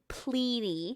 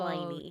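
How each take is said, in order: First: The first vowel is short, like 'ih'. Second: The first vowel is long, like 'eye'. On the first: The speaker calls it right. "It's actually Pliny" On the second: The speaker calls it wrong. "not Pliny"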